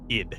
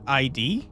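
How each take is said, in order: First: It is said as one short syllable. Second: It is spelled out as two separate letters. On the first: It means the psychological term. The speaker calls it right. "It's id" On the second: It means an identification. The speaker calls it wrong. "it's not I D"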